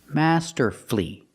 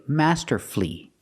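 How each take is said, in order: No difference in how they are said.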